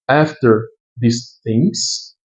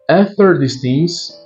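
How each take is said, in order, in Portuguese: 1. Ela é lida devagar, com pausas. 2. Ela é lida em um ritmo normal, um pouco mais rápido.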